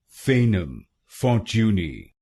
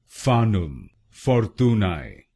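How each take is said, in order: First: It is said with a British pronunciation. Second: It is said with a Latin pronunciation.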